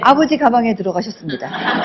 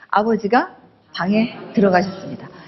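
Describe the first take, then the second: First: It runs on with no pause after the subject. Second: There is a short pause after the subject. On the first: Father went into the bag. The speaker calls it wrong. "휙 가버려요" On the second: Father went into the room. The speaker calls it right. "주어 다음에 잠깐 끊었다가 말씀하세요"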